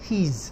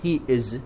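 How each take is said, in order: First: The words are joined into one short word. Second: Two separate full words are said. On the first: The speaker calls it right. "He's, not he is" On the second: The speaker calls it wrong. "not he is"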